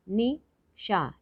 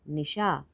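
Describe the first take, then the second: First: निशा slowly split as नि, शा; nи-शा apart, higher and slow on निशा; syllable by syllable. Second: Said in the usual way. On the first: Shown as a demonstration. Teacher sounding out निशा for learners, syllable by syllable. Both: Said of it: "तो शब्द पढ़ते हैं".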